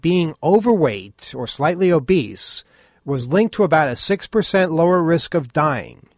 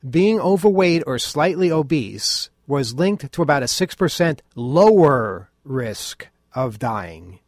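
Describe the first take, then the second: First: It is said fast. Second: It is said slowly.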